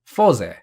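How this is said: It is said with a Japanese pronunciation. "so in Japanese it would be Foze"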